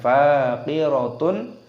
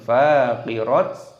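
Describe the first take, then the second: First: The word ends in a full -atun. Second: The word ends in a clipped -at. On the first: "bukan faqiratun" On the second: "ataupun faqirat"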